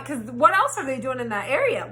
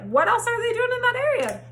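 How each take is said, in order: First: Said in the usual way. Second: Incredulous repeat. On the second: Retold or imitated. Repeated question, pitched up.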